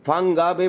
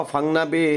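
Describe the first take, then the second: First: "ফাংগা" with a clear hard g; name with GA. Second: "ফাংনা" with n in place of g; name with NA. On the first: Vlogger giving both versions of the bay's name, "ফাংগা" with ga. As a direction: sound the g in "ফাংগা". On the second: Vlogger giving both versions of the bay's name, "ফাংনা" with na. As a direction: drop the g, say na in "ফাংনা". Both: Shown as a demonstration. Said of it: "গা হবে না না হবে".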